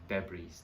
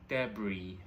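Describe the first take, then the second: First: The word ends with an audible S sound. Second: The word ends without any S sound. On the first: The speaker calls it wrong. "and not debris" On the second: The speaker calls it right. "the S is kind of silent and we pronounce it as debris"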